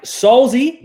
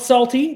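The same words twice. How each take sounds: First: Solzy said slowly and loudly, with a clear Z; Solzy pronounced deliberately, higher and drawn out; careful name pronunciation. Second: Salty with a T in place of Solzy's Z; high, loud Salty as the mistaken name; lazy Aussie pronunciation. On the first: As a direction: stretch out Solzy, stressing the correct name. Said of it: "not Salty. That is my Aussie accent being lazy". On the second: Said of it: "That is my Aussie accent being lazy". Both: Shown as a demonstration.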